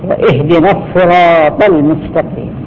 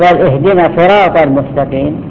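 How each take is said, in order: First: The s sound of sirat is doubled. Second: The s sound of sirat is single. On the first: The speaker calls it right. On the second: The speaker calls it wrong.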